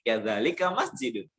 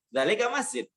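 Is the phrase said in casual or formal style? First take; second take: formal; casual. First: It is said in full, formal grammatical form. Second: It is said in short, casual everyday form. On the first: This is the correct grammatical form. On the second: This is how people say it in everyday talk. "dalam percakapan sehari-hari"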